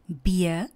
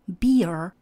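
First: The final r is not pronounced at all. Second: A rolled-back r is heard at the end. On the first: "britská" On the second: "americká"

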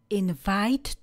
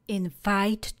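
Both takes have the same delivery.

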